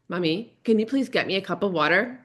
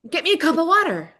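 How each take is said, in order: First: Sweet asking tone with a rise on please; the kid asking nicely this time; polite child. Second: Put-on much higher, rude little-kid demand; bossy child. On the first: Retold or imitated. Son politely asking mom for water, lightly voiced. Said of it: "do you wanna try that again". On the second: Son repeating his order to mom, high and rude. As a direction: sound like a pushy five-year-old.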